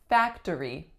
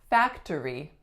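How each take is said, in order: First: All three syllables are pronounced. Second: The same.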